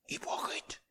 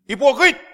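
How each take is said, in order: First: The word is said softly. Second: The word is said loudly.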